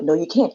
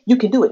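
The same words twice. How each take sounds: First: Doubting inner voice. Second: Inner cheerleader, lightly voiced; encouraging inner voice. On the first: Retold or imitated. Battle in her head on the highway, doubting voice. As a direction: lower inner naysayer, lightly voiced. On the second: Battle in her head on the highway, encouraging voice. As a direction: urge yourself on, a little brighter than the doubter. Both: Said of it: "the battle in my head".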